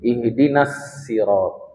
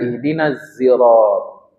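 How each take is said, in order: First: Sirat starts with a plain, light s sound. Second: Sirat starts with a z sound. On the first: This is the reading of some Hijaz Arabs. "membacanya dengan sin" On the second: This is the reading of some other readers. "Sebagian membaca dengan zai"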